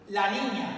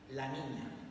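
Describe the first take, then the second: First: It is said at a louder volume. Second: It is said at a softer volume.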